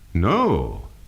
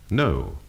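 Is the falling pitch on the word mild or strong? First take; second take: strong; mild. First: The pitch falls sharply and definitely on the word. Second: The pitch falls gently on the word. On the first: A firm denial. "There would be a more definite fall on a firm denial" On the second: A simple answer to a question. "Notice how the voice falls when you can say no to a simple question"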